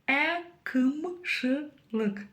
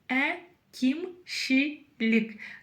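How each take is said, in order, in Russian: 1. Гласные твёрдые, как русское 'ы'. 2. Гласные очень мягкие, как русское 'и'. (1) "Пробуем прочитать через «ы». Твердовато и неудобно" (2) "Пробуем прочитать через «и». чересчур мягко и даже приторно"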